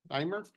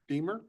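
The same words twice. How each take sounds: First: "Dimer" with a long-i first syllable, rising questioningly; name pronunciation attempt. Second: "Deemer" with a long-ee first syllable, rising questioningly; alternative name pronunciation. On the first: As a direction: try "Dimer" as DIE-mer, higher at the end. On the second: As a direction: try "Deemer" as DEE-mer, higher at the end. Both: Real, not acted. Clerk trying pronunciations of a name.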